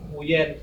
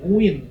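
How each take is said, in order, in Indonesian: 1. Nama ini diucapkan sesuai ejaannya, 'nguyen'. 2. Nama ini diucapkan seperti 'nguin'. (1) "orang bilang Nguyen, itu namanya bukan Nguyen" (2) "Aslinya nguin loh"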